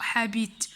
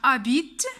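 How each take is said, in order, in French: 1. Le mot commence par un h soufflé simple. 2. Le mot commence directement par la voyelle. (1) "أو habite ... أو ها" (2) "عندنا habite"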